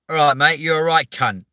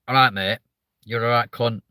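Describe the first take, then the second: First: It is said in a Southern English accent. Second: It is said in a Mancunian accent. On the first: It is meant as an insult. "when the Southerner says it" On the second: It is meant affectionately. "If a Mancunian goes"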